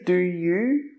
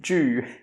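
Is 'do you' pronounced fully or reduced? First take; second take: fully; reduced. First: Both words are pronounced fully and separately. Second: The two words are squeezed into one short syllable. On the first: The speaker calls it wrong. "We don't say do you" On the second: The speaker calls it right. "we say do"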